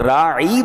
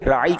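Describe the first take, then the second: First: The final vowel is drawn out long. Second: The final vowel is kept short. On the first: It means shepherd, used as an insult. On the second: It means please have regard for us.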